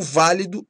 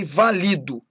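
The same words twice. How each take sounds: First: VÁLIDO stressed on the first syllable; tônica no VÁ. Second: VALIDO stressed on LI; tônica no LI. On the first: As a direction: hit the VÁ of válido. (válido com tônica na primeira sílaba) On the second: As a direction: say Valido with the weight on LI. (Valido com tônica na penúltima) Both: Shown as a demonstration. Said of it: "mudam de sentido conforme a pronúncia".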